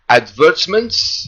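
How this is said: The word has a British pronunciation. "in the British pronunciation"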